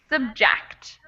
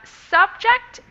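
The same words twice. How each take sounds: First: The stress is on the second syllable. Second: The stress is on the first syllable. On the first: It is used as a verb. "the word stress has moved" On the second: It is used as a noun. "the word stress has moved"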